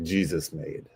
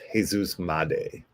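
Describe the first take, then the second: First: The surname sounds like the English word made. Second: The surname does not sound like English made. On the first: The speaker calls it wrong. "looks like Jesus made, but that is not the appropriate pronunciation" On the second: The speaker calls it right. "So I believe it's Jesus Made"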